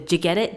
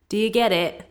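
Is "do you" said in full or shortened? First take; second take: shortened; full. First: "Do you" is shortened to one syllable. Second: "Do you" is said in full. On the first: "that can be shortened to" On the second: "you say"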